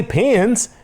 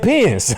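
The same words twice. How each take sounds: First: "pins" pitched high, the rejected version; contrasted pronunciation. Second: "pins" drawn toward "pans", falling; Chicago pronunciation. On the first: Host correcting the quote, high contrastive "pins". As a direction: say "pins" high as the word he didn't say. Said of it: "He didn't say pins". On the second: Host giving what he really said, "pins" as "pans". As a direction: land "pins" as "pee-ans", breaking into laughter. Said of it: "He said pins". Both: Retold or imitated.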